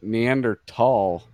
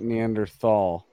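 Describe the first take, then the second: First: The word is said with a plain t sound. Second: The word is said with a th sound. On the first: The speaker calls it right. "I recently learned it's ... Neanderthal" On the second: The speaker calls it wrong. "not Neanderthal"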